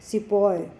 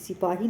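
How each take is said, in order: First: The word ends with an 'oy' sound. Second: The word ends with a 'hee' sound. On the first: "सिपॉय ये बोलते थे" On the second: "उनसे जो है सिपाही नहीं बोला जाता था"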